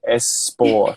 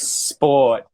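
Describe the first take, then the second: First: An extra vowel sound comes before the S. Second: It starts directly with the sp cluster. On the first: The speaker calls it wrong. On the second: The speaker calls it right. "not making a vowel sound before the S"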